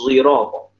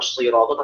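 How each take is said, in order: First: The first consonant is blended with a z sound. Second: The first consonant is a plain s sound. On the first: This is another reciter's reading. "Sad yang diismamkan dengan zaid" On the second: This is the usual reading. "Jadi bukan siratal"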